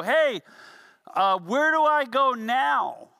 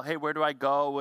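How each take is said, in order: First: Called-out question, higher and louder, slow; yelling down for help. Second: Said in the usual way. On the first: Retold or imitated. Stuck climber yells down to friends below, louder and higher. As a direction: shout the question down to friends on the ground. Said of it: "You'd yell over your shoulder". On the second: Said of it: "somebody would yell".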